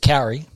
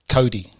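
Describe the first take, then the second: First: The middle consonant sounds like an English r. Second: The middle consonant sounds like a d. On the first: The speaker calls it wrong. "Bad way is carry" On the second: The speaker calls it right. "the easiest way to say it is Cody"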